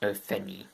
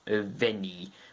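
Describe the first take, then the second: First: The consonant before the E sounds like F. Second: The consonant before the E sounds like V. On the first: The speaker calls it wrong. "not Ufenni" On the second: The speaker calls it right. "F in Welsh is pronounced like a V in English"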